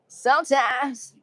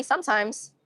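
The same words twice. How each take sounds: First: Higher, very drawn-out silly voice; playful echo. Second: Said in the usual way. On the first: Pretend. Streamer joking about being funny sometimes, playful drawn-out echo. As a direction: stretch it out slowly and comically.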